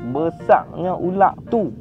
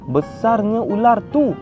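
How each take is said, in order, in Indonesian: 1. Bunyi R di akhir kata berubah menjadi bunyi tenggorokan belakang. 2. Bunyi R di akhir kata adalah R bahasa Melayu baku. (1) "R jadi Q" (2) "Jarang orang Kedah cakap gitu"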